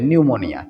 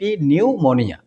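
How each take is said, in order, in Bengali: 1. শব্দটি সরাসরি n ধ্বনি দিয়ে শুরু হয়। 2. শব্দটি স্পষ্ট p ধ্বনি দিয়ে শুরু হয়। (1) "কিন্তু উচ্চারণ কি হবে?" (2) "পি নিউমোনিয়া তোমরা বলতে পারো"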